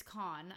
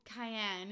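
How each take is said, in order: First: One-syllable "con" for Cannes; French pronunciation. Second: "cayenne" as a misreading of Cannes; anglicised mispronunciation. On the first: Boyfriend correcting her French town name, French pronunciation. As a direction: say "con" short, final s silent. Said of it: "He's like, It's con". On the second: Traveller misnaming a French town to boyfriend, anglicised mispronunciation. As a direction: say "cayenne" in two syllables, like the pepper. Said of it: "pronounce it like you would in English or Spanish". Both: Retold or imitated.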